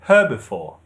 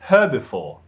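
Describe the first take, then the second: First: The stress is on the second syllable. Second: The same.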